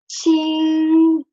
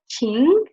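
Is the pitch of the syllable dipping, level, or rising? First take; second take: level; rising. First: The pitch stays high and level. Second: The pitch rises from middle to high. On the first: It means bright or clean. "this ching will get the first tone" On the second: It means feeling or emotion. "it will get the second tone"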